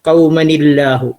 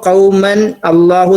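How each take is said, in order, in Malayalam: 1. ഈ വാക്കുകൾ 'ni' എന്ന ശബ്ദം ചേർത്താണ് ബന്ധിപ്പിക്കുന്നത്. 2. ഈ വാക്കുകൾ ബന്ധിപ്പിക്കുന്ന സ്വരമില്ലാതെ വെവ്വേറെയാണ് പറയുന്നത്. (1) "ആ തൻവീനെ നൂനാക്കി മാറ്റി കെസറ് കൊടുത്തിട്ടാണ് ഉച്ചരിക്കുക" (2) "കൗമൻ അള്ളാഹു എന്ന് പറയാതെ"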